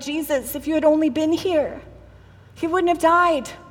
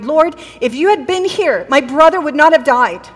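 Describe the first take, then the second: First: It is said in a grieving, tearful tone. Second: It is said in an accusing tone.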